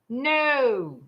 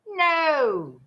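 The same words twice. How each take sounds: First: It is said plainly, without drama. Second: It is said in an exaggerated, dramatic way.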